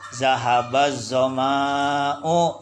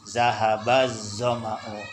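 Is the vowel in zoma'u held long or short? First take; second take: long; short. First: The vowel in zoma'u is drawn out long. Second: The vowel in zoma'u is kept short.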